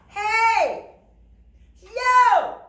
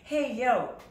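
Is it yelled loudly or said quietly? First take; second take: loudly; quietly. First: It is yelled loudly with an open mouth. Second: It is said quietly, like in conversation.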